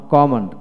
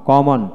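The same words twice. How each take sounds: The two takes are said the same way.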